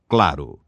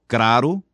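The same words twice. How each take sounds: First: The L sound is pronounced. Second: An R sound replaces the L. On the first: The speaker calls it right. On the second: The speaker calls it wrong. "Lambdacismo é a pronúncia defeituosa da letra L"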